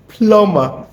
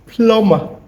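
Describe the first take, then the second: No difference in how they are said.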